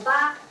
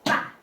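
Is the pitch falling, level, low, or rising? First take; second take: level; falling. First: The pitch stays high and level. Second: The pitch falls sharply. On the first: It means eight. "ba is very flat" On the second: It means dad. "the last one is go down"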